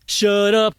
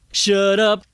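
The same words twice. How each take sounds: The two takes are said the same way.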